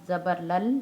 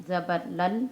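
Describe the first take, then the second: No difference in how they are said.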